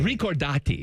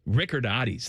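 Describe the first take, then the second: First: The name is pronounced the Italian way. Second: The name is pronounced the American way. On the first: This is the family's original name. "is my last name" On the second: This is an adapted version of the name. "the just Americanized version"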